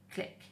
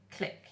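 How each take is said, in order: Both takes have the same delivery.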